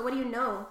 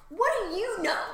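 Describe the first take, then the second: First: Said in the usual way. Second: "what do you know" high and loud, swooping on each stress; exaggerated emphatic question. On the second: Real, not acted. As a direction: punch "what" and "know" with big pitch swoops.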